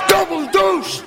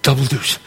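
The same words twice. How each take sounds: First: High, shouted triumph; jubilant shout. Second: Much lower, contained voice; low, focused wish. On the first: Gambler sees the kid hit double deuce, jubilant shout. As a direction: yell it out at the winning roll. The throw wins. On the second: Kid about to throw the dice, low and focused. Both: Acted.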